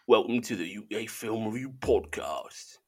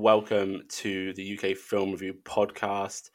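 First: It is said in an attempted Cockney accent. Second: It is said in the speaker's normal accent. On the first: "I'll do it now and I'll just see if anyone notices" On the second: "I was going to do that in a Cockney accent"

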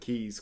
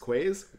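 First: It sounds like keys, with no w sound. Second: It sounds like kways, with a w sound. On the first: The speaker calls it right. "it's pronounced keys over quays" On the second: The speaker calls it wrong. "it's a common mistake we make"

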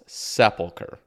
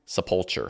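First: The stress is on the first syllable. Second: The stress is on a later syllable. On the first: The speaker calls it right. "the stress is on the first syllable" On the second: The speaker calls it wrong. "you're hurting me, hurting my ears"

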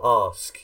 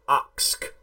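First: It is said with a standard English pronunciation. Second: It is said with a Caribbean-influenced London slang pronunciation. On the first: "instead of" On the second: "the same way they'd say"

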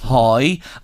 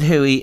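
First: The name sounds like 'hoy', one syllable. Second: The name sounds like 'hoo-ee'. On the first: This is how people in Drogheda say it. "If he was in Drogheda, we'd say hoi" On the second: This is the local way where he comes from. "he pronounces it Huey"

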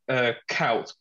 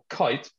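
First: The vowel sounds like 'ow'. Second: The vowel sounds like 'eye'. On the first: "when everyone goes"

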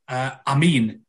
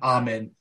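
First: The second vowel is a long 'ee' sound. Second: The second vowel is a short 'i' sound. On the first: The speaker calls it right. "it's pronounced as if it's A-M-E-E-N" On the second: This is how English people say it. The speaker calls it wrong. "the way just the English people pronounce a word with I in it"

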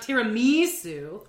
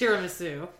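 First: The word is said with exaggerated, affected emphasis. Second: The word is said plainly, without extra emphasis. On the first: The speaker calls it wrong. "not tiramisu" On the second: The speaker calls it right. "It is tiramisu"

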